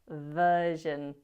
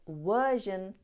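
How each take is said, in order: First: It starts with a V sound. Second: It starts with a W sound. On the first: The speaker calls it right. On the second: The speaker calls it wrong.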